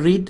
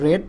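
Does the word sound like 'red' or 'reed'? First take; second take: reed; red. First: The vowel is long, like 'reed'. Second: The vowel is short, like 'red'. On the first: The speaker calls it wrong. "এটা রিড উচ্চারণ হবে না" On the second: The speaker calls it right. "এটা past participle"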